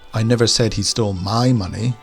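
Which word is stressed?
my. The stress falls on the word my. The stolen money belonged to someone else. "he stole some money, but it wasn't mine"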